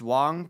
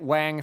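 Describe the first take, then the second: First: The vowel is a rounded 'o' sound. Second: The vowel is an open 'a' sound. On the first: This is the usual way the name is said. "most of the time the name is pronounced Wong" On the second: This is a less common way, kept as a joke. "I'm gonna keep pronouncing it Wang for the memes"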